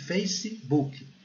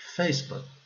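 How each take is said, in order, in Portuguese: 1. É dito com sotaque do português brasileiro. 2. É dito com sotaque nativo do inglês. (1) "Aqui nós falamos Facebook" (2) "lá eles falam Facebook"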